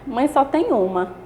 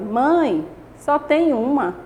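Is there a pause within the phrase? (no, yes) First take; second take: no; yes. First: It is said straight through without a pause. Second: It is said with a pause inside the phrase. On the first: A mother is unique and should be valued. "Sem vírgula" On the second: It states a count: there is only one. "Agora vou colocar a vírgula"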